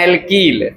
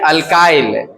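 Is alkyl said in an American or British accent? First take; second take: British; American. First: It is said the British way, like al-keel. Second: It is said the American way, like al-kile.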